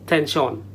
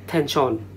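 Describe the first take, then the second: The two takes are said the same way.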